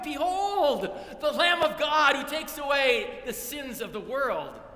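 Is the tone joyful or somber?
joyful. It is said in an excited, joyful tone.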